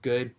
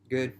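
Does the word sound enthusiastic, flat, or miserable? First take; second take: flat; miserable. First: The word sounds flat and neutral. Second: The word sounds low and miserable. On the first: Things are just okay. "it could mean, I'm doing all right" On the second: Things are going horribly. "it could mean that, you know, oh, day's real shitty"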